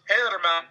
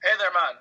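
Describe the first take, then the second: First: Put-on a light thick Irish accent on the greeting. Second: A light imitation of a thick Irish accent. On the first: Sheamus greeting a fan, lightly done thick Irish accent. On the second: Showing how Sheamus talks, lightly imitated Irish accent. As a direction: repeat the greeting with a mild thick Irish lilt. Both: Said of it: "that thick Irish accent".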